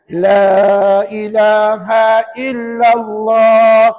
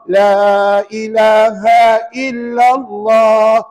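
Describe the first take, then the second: No difference in how they are said.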